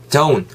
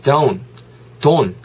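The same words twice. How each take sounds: First: "don't" said as "doun", with an oo glide; "oun" vowel in don't. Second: "don't" said as "don", with no oo glide; plain "don" vowel. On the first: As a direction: slide "don't" from o to oo, no t. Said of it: "우 비슷한 사운드". (don't를 '도운'처럼 우 소리 넣어) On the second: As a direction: flatten "don't" to a pure o, no w-sound. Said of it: "중간에 don이 아니고". (don't를 우 소리 없이 '돈'으로) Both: Shown as a demonstration.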